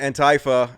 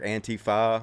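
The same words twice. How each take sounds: First: The first part does not sound like 'anti'. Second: The first part sounds like the word 'anti'. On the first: The speaker calls it wrong. "I know that's not how you pronounce it" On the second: The speaker calls it right. "I know it's anti, like you're anti"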